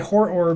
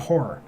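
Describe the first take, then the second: First: The word is pronounced in a deliberately exaggerated way. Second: The word is pronounced in a plain, everyday way. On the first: This makes the word clear and not mistaken. The speaker calls it right. "I have to say horror because otherwise" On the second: This could sound like a different word. The speaker calls it wrong. "it just sounds like I'm saying horror"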